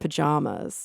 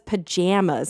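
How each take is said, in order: First: It uses a non-Midwestern pronunciation of the word. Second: It uses a Midwestern pronunciation of the word. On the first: This is the usual way. "instead of pajamas" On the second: Another person says it this way. "he says pajamas"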